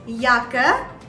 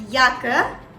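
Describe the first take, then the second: First: It begins with a Y sound. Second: It begins with a Y sound.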